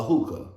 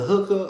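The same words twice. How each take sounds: First: Hookah with the long oo of "who"; alternative pronunciation. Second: Hookah with the short oo of "book"; pronunciation query. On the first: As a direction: say "hookah" as HOO-kuh, long vowel. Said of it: "I think it's hookah". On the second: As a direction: say "hookah" as HUUK-uh, short vowel. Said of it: "Is it hookah or hookah". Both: Shown as a demonstration.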